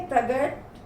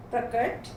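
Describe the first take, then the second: First: प्रगट with "g" for "k"; wrong consonant. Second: Said in the usual way. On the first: Shown as a demonstration. Teacher reads the error list, wrong consonant "g" in प्रगट. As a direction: say प्रगट with a voiced "g". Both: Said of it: "कुछ तो मात्रा संबंधी हैं".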